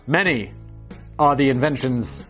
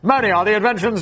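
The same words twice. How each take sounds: First: It is read in a natural, ordinary voice. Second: It is read in a put-on old-fashioned voice.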